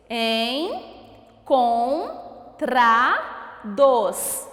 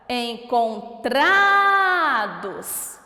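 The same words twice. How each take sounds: First: ENCONTRADOS in four beats with long pauses, EN, CON, TRA, DOS; very slow Encontrados, one syllable at a time; split into syllables. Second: ENCONTRADOS with a long, loud TRA; stress on TRA. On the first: Teacher counting syllables, ENCONTRADOS broken into four separate beats. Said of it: "descobrir primeiro quantas sílabas". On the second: Teacher finding the stressed syllable, ENCONTRADOS with long loud TRA. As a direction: stretch and push the TRA in Encontrados. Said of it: "qual é a sílaba tônica?". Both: Shown as a demonstration.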